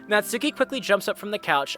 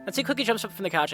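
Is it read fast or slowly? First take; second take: slowly; fast. First: It is read slowly. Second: It is read fast.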